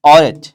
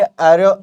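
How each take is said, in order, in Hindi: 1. नाम का अंत एक साफ़ t की आवाज़ से होता है। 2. नाम का अंत एक स्वर से होता है, बिना t के। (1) "मैं तो ऐसे प्रोनाउंस कर रहा हूँ" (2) "फ्रेंच में आर्यो ऐसे बोलते हैं"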